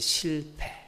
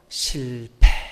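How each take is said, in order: First: It is said plainly, without feeling. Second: It is said with heartfelt emotion.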